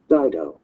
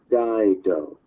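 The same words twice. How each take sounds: First: Said in the usual way. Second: Dido drawn out slowly, syllable by syllable; slower pronunciation. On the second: A narrator's reading. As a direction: say Dido slowly so it can be followed. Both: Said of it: "I'll say it slower".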